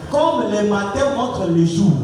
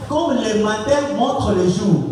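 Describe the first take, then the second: No difference in how they are said.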